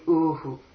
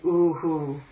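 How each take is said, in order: First: The vowel after the h is short. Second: The vowel after the h is long. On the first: The speaker calls it right. "followed by a short oo" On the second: The speaker calls it wrong. "it's not going to be"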